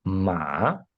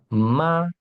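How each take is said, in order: First: "ma" dipping low, then rising; "ma" drawn out with a rising tail; changed intonation. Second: "ma" held high and level; "ma" in Mandarin first tone, no rise or fall. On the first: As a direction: let "ma" sink and swing up at the end. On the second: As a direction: say "ma" on a high, even, drawn-out note. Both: Shown as a demonstration. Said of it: "eu estou mudando a entonação".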